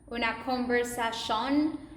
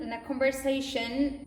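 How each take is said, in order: First: The ending is said like Spanish 'sion'. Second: The ending is said like English 'shun'. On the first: The speaker calls it right. "to sion" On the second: The speaker calls it wrong. "their brain is not used to change the T sound shun"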